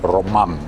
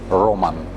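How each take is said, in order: First: The stress is on the second syllable. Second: The stress is on the first syllable. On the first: The speaker calls it right. "The stress is on the second syllable" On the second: The speaker calls it wrong. "They put the stress on the first syllable"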